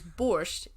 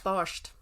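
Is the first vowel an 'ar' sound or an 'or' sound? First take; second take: or; ar. First: The first vowel sounds like 'or'. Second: The first vowel sounds like 'ar'. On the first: It is the Russian form. The speaker calls it wrong. "borscht is the Russian" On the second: It is the Polish form. The speaker calls it right. "It's got to be pronounced barsht"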